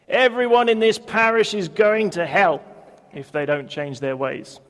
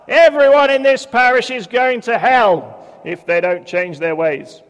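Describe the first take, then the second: First: It is said at normal volume. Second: It is said more loudly.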